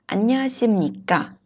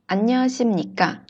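No difference in how they are said.

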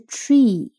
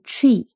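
First: The vowel is said long. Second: The vowel is said short. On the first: The speaker calls it wrong. "不是那个tree 的e 长音" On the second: The speaker calls it right. "但是这个tree 的e 是短音"

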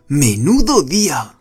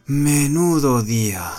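First: It is said in a cheerful, delighted tone. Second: It is said in a weary, exhausted tone. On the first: The day was great fun. "如果我换一个语气说" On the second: The day was busy and exhausting. "意思是说我今天很忙很累"

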